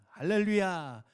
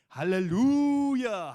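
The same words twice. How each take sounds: First: It is said at a normal volume. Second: It is shouted in a much louder voice.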